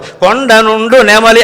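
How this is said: It stops with a pause after నెమలి.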